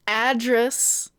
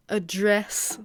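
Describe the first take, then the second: First: "address" stressed on the first syllable, AD-dress; "address" with a full first vowel, AD-dress; noun pronunciation. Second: "address" stressed on the second syllable, a-DRESS; "address" with a weak first vowel, a-DRESS; verb pronunciation. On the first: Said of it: "the noun". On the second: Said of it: "the verb". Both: Shown as a demonstration.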